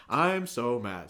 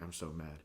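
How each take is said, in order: First: Loud, slow mock line reading; announcing. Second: Low, soft imitation of self-muttering; mumbled practice read. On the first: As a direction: proclaim it stiffly, imitating a bad actor. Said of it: "he was, like, announcing it". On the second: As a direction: murmur the line as if rehearsing privately. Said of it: "kind of mumble it to himself".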